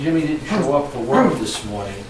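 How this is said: The sentence is said in a relaxed, casual tone. It is just routine news. "that's kind of a casual tone"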